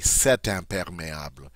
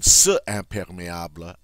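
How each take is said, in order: First: A t sound links the two words smoothly. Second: Two vowel sounds meet with no linking consonant. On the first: The speaker calls it right. "I say cet imperméable, and it just flows beautifully" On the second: The speaker calls it wrong. "instead of saying ce imperméable"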